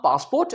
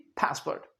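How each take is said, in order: First: PASSPORT as "paas-port", rising; British-Indian pronunciation. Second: PASSPORT as "pæs-pert"; American pronunciation. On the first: Teacher contrasting our way, "paasport" पासपोर्ट. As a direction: say पासपोर्ट with long aa. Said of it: "हम पासपोर्ट". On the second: Teacher contrasting American English, "pæspert" पासपोर्ट. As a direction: say पासपोर्ट American-style, short second syllable. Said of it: "American English में". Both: Shown as a demonstration.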